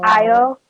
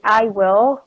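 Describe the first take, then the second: First: The two words are contracted into one syllable. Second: Both words are said fully and separately. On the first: The speaker calls it right. "but I'll" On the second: The speaker calls it wrong. "they don't say, I will"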